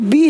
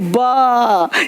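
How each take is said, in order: First: The letter is said with a long ee vowel. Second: The letter is said as a short buh sound. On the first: The speaker calls it wrong. "ये जो बी है नहीं" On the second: The speaker calls it right. "नहीं बा"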